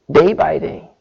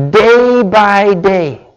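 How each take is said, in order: First: Said in the usual way. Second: "day by day" stretched out very slowly; drawn-out emphasis. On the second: Shown as a demonstration. Preacher reads the verse about Joseph, "day by day" slow and drawn out. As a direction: dwell on each word of "day by day". Stresses verse phrase, then repeats it.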